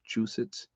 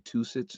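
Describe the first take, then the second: First: The ending begins with a 'ch' sound. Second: The ending begins with a plain 't' sound. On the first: The speaker calls it right. "it's it's Chew, Chusits" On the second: The speaker calls it wrong. "I always say Tusits"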